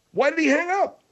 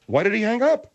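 First: Very high, squealed rising demand; outraged question. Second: Higher, rising demand; indignant question. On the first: Host demands why the caller hung up, high-pitched outrage. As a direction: send the whole question way up in disbelief. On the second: Host finds the caller has hung up, indignant question. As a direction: ask it pointedly, lifting at the end. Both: Acted.

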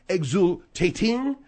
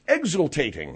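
First: "Exultating" slowly in mock French; French pronunciation. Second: Said in the usual way. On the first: Host hunts for the French word "Exultating", mock French. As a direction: stretch "Exultating" out as fake French. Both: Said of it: "what's the French?".

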